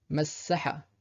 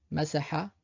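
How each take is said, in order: First: Massaha avec le ss long; massaha, doubler le s; doubled s. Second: Masaha avec un s simple et bref; single s. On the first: (massaha avec shadda, ss tenu) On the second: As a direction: Masaha sans doubler le s. (Masaha, s court) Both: Shown as a demonstration. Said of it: "distinguer entre le mot avec la shadda et sans".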